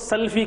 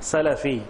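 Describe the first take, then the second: First: There is no vowel between l and f. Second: There is a short a between l and f. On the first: The speaker calls it wrong. "कुछ लोग इसको सल्फी कहते हैं, गलत है।" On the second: The speaker calls it right. "लाम के फतेह से कहें आप सलफ़ी"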